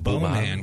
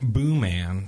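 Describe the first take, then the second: First: The first syllable has an 'oh' vowel. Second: The first syllable has an 'oo' vowel. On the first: The speaker calls it wrong. "We originally were calling it Bow Man because it's spelled B-O-E-M-A-N" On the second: The speaker calls it right. "What's the real name?"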